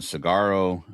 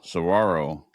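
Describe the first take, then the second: First: The word starts with 'sig' and has no 'w'. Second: The word starts with 'sah' and has a 'w'. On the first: The speaker calls it wrong. "I pronounced it cigaro" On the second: The speaker calls it right. "he says it's saguaro"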